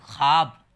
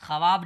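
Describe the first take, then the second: First: ख्वाब in one firm loud syllable, "khaab"; correct silent-wao reading. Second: ख्वाब broken into two syllables, "kha-waab"; wrong spelling pronunciation. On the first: Teacher correcting learners, ख्वाब said loudly as "khaab". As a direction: say ख्वाब louder, as "khaab" without w. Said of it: "वाव के साथ पढ़ते हैं अलिफ की तरह". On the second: Teacher telling learners what not to read, ख्वाब said "kha-waab". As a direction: sound the वाव in ख्वाब as a w. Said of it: "ख्वाब नहीं पढ़िएगा आप लोग". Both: Shown as a demonstration.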